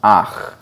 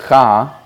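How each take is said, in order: First: "ach" with the a before the ch; right reading. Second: "cha" with the ch before the a, the mistaken way; wrong reading. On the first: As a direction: say "ach", vowel then ch, as the correct form. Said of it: "it is nevertheless pronounced". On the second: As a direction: give "cha" as the tempting but wrong reading. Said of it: "you might think it should be pronounced". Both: Shown as a demonstration.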